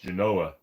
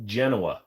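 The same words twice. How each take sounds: First: "Genoa" stressed on the middle syllable; corrected pronunciation of Genoa. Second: "Genoa" stressed on the first syllable; own pronunciation of Genoa. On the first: Retold or imitated. Streamer mimicking a corrector, "Genoa" as juh-NO-ah. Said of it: "No, it's actually pronounced Genoa". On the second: Shown as a demonstration. Streamer naming his preferred salami, "Genoa" as JEN-oh-ah. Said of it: "it's actually pronounced Genoa".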